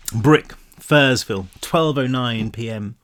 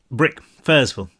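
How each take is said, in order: First: Slow, spaced-out reading; slow and deliberate. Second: Said in the usual way. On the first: Shown as a demonstration. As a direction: read each word slowly, like a chapter heading. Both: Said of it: "Did I just say that?".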